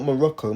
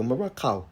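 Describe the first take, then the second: First: Said in the usual way. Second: Morocco with a broad Cockney "ow" ending; Cockney accent. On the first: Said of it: "Not Morocco". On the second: Shown as a demonstration. Correcting himself to the Cockney way, broad "Morocc-ow" in Cockney accent. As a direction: say Morocco in mock Cockney, final vowel widened. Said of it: "that British Cockney accent".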